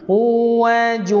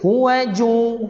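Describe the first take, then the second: First: The vowel in hu is drawn out long. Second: The vowel in hu is kept short. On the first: The speaker calls it wrong. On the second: The speaker calls it right.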